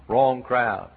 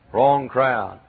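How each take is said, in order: Both takes have the same delivery.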